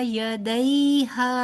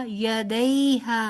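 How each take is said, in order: The two takes are said the same way.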